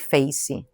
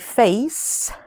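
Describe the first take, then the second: First: An extra ee vowel follows the final S. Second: The word ends cleanly on the S sound. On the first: "we put an I at the end. We say facey" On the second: "So words like face"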